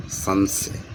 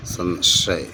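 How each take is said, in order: First: संशय with a plain s, as "sansay"; wrong spelling read out. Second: संशय with a clear sh, as "san-shay"; careful model reading, "san-SHAY"; correct pronunciation. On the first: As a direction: say संशय as "san-say", no sh sound. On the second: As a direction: say the second sibilant of संशय as sh. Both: Shown as a demonstration. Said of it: "ये वाला शुद्ध है".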